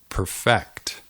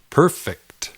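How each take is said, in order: First: The stress is on the second syllable. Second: The stress is on the first syllable. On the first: It is the verb meaning to make flawless. "Notice that the emphasis is on the second syllable" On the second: It is the adjective meaning flawless. "El énfasis cae en la primera sílaba"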